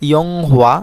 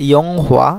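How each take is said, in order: The two takes are said the same way.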